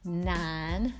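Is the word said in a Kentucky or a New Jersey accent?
Kentucky. It is said with a Kentucky accent. This is how the locals said it. "instead of saying nine"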